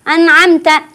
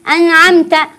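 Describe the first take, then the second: First: The n is merged into the next sound. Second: The same.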